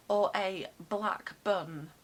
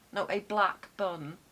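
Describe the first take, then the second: First: Said in the usual way. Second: Firm correction, punch "black"; "black" clearly hit; correcting. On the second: Shown as a demonstration. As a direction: stress on "black" in "No, a black bun".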